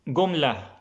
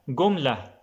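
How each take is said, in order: Both takes have the same delivery.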